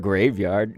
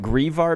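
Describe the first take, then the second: First: The first syllable sounds like 'grave'. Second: The first syllable sounds like 'grieve'. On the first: "it's a pun on graveyard" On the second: "grieve, like grieving"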